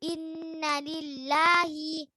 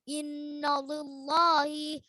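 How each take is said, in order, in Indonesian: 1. Bunyi L-nya tipis. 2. Bunyi L-nya tebal. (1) "Jadi itu yang betulnya ibu-ibu" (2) "Jadi bukan innalillahi, Salah itu ibu-ibu"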